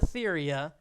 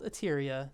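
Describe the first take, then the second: First: The second consonant is a 'th' sound. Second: The second consonant is a plain 't' sound. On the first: The speaker calls it wrong. "I used to call it Etheria" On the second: The speaker calls it right. "it is called Eteria, so you don't really say the H"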